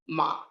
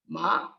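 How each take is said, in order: First: The pitch stays level throughout. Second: The pitch rises throughout. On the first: "This is again a level tone" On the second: "And it's a rising tone"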